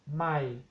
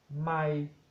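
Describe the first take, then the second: First: It is said on a low tone. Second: It is said on a level mid tone. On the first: It means new. "Tono bajo" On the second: It means a mile. "el tono medio"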